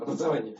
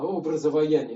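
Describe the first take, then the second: First: The word is said at an ordinary, quick pace. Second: The word is slowly stretched out syllable by syllable. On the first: It is just ordinary schooling. "Не просто там образование" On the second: It is a process of forming images inside. "когда вот растягиваешь это слово"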